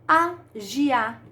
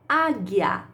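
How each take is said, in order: First: The g is said like the 'gi' sound. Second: The g is said like the 'gui' sound. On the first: The speaker calls it wrong. "Opa, eu falo agiar. Não" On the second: The speaker calls it right. "Eu falo agui, gui. ... Isto mesmo"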